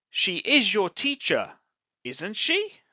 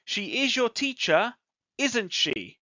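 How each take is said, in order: First: "isn't she" climbs up on "she"; rising tag. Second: "isn't she" drops down on "she"; falling tag. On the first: Teacher checks the example with students, rising tag. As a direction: ask "isn't she" as a real question, pitch lifting. Same example, questioning tune. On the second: Teacher expects agreement on the example, falling tag. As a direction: say "isn't she" as a sure statement, pitch falling. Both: Shown as a demonstration.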